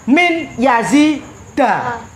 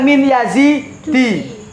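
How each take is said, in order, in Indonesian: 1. Nama itu berakhir dengan vokal fathah. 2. Nama itu berakhir dengan vokal selain fathah. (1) "Bacanya min yazida" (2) "Bukan min yazidi"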